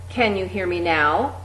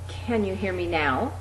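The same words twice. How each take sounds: First: It is said at a moderate loudness. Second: It is said at its softest level. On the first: "getting progressively louder each time" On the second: "getting progressively louder each time"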